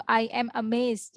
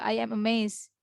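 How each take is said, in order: First: Slow teacher demo of "I am amazed"; careful classroom example; slow model sentence. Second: Said in the usual way. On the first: Shown as a demonstration. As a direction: say "I am amazed" slowly for learners. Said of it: "Jadi misalkan". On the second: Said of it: "Jadi, eh".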